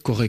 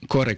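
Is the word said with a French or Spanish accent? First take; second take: French; Spanish. First: It is said with a French-style r. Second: It is said with a Spanish-style r. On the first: "je peux être amené à le dire à la française" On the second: "si je dis"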